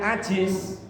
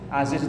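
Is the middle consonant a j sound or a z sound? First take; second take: j sound; z sound. First: The middle consonant is a j sound. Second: The middle consonant is a z sound. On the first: The name comes to mean weak. The speaker calls it wrong. "Tapi karena bacanya ajiz" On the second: The name means strong and mighty. The speaker calls it right. "Aziz itu perkasa"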